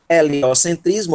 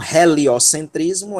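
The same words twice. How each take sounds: First: "Heliocentrismo" starting straight on the E; everyday Portuguese "Heliocentrismo", H left silent. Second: "heliocentrismo" with a breathed English-style H; "heliocentrismo" pronounced with the H sounded; aspirated H. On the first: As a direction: say "Heliocentrismo" with no breath before the E. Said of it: "a gente não pronuncia o H". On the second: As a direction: puff an audible H at the start of "heliocentrismo". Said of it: "dessa aspiração forte". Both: Shown as a demonstration.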